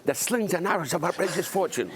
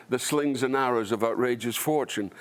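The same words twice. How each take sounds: First: Put-on high-pitched small child reciting Shakespeare; imitating a toddler. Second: Said in the usual way. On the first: Actor recalling his young pupil's performance, imitated toddler voice. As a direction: mimic a two-year-old's high-voiced Hamlet. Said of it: "He just went". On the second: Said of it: "there's a moment in it when he does".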